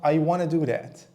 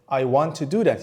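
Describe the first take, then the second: First: Want to is blended into one word, wanna. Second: Want to is said as two full words. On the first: "when you want to talk fast ... you'll say" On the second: "he or she may say"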